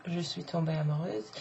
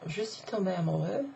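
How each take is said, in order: First: Amoureuse ending on a voiced z; feminine ending. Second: Amoureux ending on open eu, lightly rising; masculine ending. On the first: Teacher contrasting genders, amoureuse with z feminine ending. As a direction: finish amoureuse with a buzzed z. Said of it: "amoureuse is the feminine". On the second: Teacher contrasting genders, amoureux with open masculine ending. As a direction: leave amoureux open, no z sound. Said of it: "amoureux is the masculine". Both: Shown as a demonstration.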